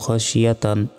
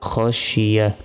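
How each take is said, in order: First: The word ends with a 't' and 'an'. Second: The word ends without any 't' sound. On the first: The reader continues without stopping. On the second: The reader stops on this word.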